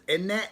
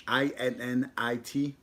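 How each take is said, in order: First: High mock British innit, said like a Londoner. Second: I N N I T, each letter plain and slow; spelled out. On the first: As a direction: toss off Innit? in a playful fake British accent. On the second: Shown as a demonstration. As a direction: spell Innit letter by letter, slowly. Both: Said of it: "a U K word is?".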